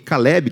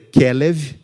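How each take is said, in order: First: The name ends with a b sound. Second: The name ends with a v sound. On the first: The speaker calls it wrong. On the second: The speaker calls it right.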